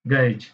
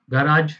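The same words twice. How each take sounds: First: गैरेज with a short "rij" ending; British pronunciation. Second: गराज with a long "raaj" ending; American pronunciation. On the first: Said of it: "और British में". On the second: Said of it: "हम British और American". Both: Shown as a demonstration.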